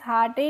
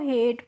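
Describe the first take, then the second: First: It is said as two syllables, har-tay. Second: It is said as one syllable, hayt. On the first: The speaker calls it wrong. "हार्टे नहीं पढ़ते हैं" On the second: The speaker calls it right. "इसको हेट पढ़ते हैं"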